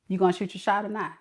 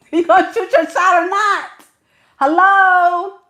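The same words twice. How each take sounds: First: Low, quick, soft aside; muttered impatience. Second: High-pitched, insistent outburst; exasperated demand. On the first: Woman waiting on a man to flirt, muttered impatience. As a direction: mutter it under your breath, fast. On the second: Woman waiting on a man to flirt, exasperated outburst. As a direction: push it high and impatient, calling out. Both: Acted.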